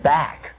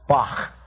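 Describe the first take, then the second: First: The word ends in a hard k sound. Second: The word ends in a rasping throat sound. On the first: The speaker calls it wrong. "It isn't back" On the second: The speaker calls it right. "we don't have that sound in English"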